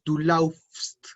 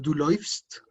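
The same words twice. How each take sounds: First: "du laufst" with au as in house, slow; teacher shows the wrong "du laufst", au like ow; wrong form. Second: "du läufst" with äu said as oy, "loifst"; teacher gives the correct "du läufst", äu like oy; umlaut form. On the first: Teacher to class: wrong form "du laufst", au as ow. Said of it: "ya no decimos". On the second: Teacher to class: correct "du läufst", äu as oy. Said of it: "sino que decimos". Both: Shown as a demonstration.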